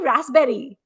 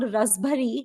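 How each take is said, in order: First: It is said with the standard English pronunciation. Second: It is said the way Indian street vendors say it. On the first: This is the actual name of the fruit. "it's actually raspberry" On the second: This is the name the vendors used. "what the vendors called rasbari in India"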